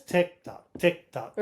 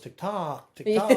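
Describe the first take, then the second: First: The beat falls on each tick. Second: The beat falls on each tock. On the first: The speaker calls it right. "the trochaic meter" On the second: The speaker calls it wrong. "no one goes tick tock tick tock"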